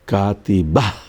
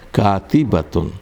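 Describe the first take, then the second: First: The word ends with a breathy 'h' sound. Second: The word ends with a full 'tun' syllable.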